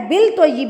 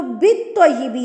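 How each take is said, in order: First: بالطیب said as bilttoyyib, with the silent lam voiced; wrong reading. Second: بالطیب said as bittoyyib, with no l sound; correct reading. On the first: Teacher mimicking a student's mistake, بالطیب with an l. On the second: Teacher showing the right way, بالطیب as bittoyyib. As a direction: join the b straight to the doubled t in بالطیب. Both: Shown as a demonstration. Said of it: "یہ غلط ہے".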